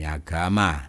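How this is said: The word begins with an 'ah' vowel. This is how the word is said here. "di sini agama"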